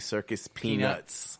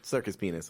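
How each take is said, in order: First: It is said slowly with every sound clear. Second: It is said quickly with the sounds slurred together. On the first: The speaker calls it right. "I pronounce that and say it clearly" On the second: The speaker calls it wrong. "if you say it too fast after a beer"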